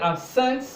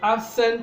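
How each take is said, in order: First: The stress is on the second syllable. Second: The stress is on the first syllable. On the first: It describes keeping oneself away, as a verb. "stress is on the second syllable" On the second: It describes someone not being there, as an adjective. "that is an adjective"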